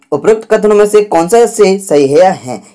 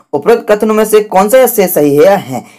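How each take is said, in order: Both takes have the same delivery.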